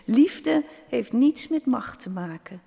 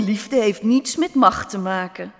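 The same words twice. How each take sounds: First: Higher-pitched, measured echo stressing "liefde"; gently emphatic agreement, raised in pitch; agreeing little stone. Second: Loud, dismissive royal grumble; mildly gruff, forceful objection; grumbling king. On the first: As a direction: lift "liefde" high, then spell out the point. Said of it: "zei het steentje". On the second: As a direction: grumble it firmly and louder, as a mild protest. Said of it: "bromde de koning". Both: A narrator's reading.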